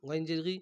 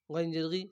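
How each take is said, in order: Both takes have the same delivery.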